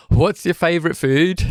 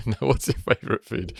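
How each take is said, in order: First: Put-on high, jokey Brummy accent. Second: Said in the usual way. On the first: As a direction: put on a Birmingham accent for fun. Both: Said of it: "my Brummy accent shouldn't come out".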